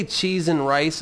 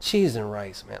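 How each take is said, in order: First: Said in the usual way. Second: Low, subdued mutter, trailing off; apologetic. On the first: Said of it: "if you say "cheese and rice". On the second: Acted. Podcaster mimicking someone using a substitute curse, apologetic. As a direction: say CHEESE AND RICE low and sheepish. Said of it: "you say it just like".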